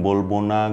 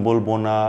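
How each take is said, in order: Both takes have the same delivery.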